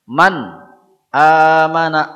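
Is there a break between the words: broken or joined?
broken. There is a break between the two words. The speaker calls it wrong. "tidak boleh ada kesan putus. Man amana enggak boleh"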